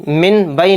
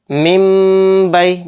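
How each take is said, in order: First: मिन बई with the नून spoken clearly, quickly; wrong reading. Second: मिम बई slow, नून merged into मीम with गुन्ना; correct recitation. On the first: Teacher showing the mistake, quick मिन बई. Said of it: "मिन बई नहीं पढ़ेंगे इसको". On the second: Teacher drilling pupils, slow merged मिम बई. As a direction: stretch मिम बई slowly, no नून. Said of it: "गुन्ना और इख्फा के साथ भी पढ़ेंगे". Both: Shown as a demonstration.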